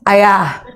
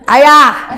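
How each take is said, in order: First: It is called a little higher in pitch. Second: It is called at a very high pitch.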